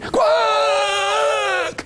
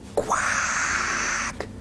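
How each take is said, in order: First: It is said in a big, loud voice. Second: It is said in a small, quiet voice.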